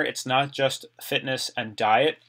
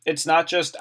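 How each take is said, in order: First: NOT held long and rising, slow; stress on NOT. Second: Said in the usual way. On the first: Real, not acted. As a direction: lean on not in "It's not just fitness and diet". Stressing it's not just fitness.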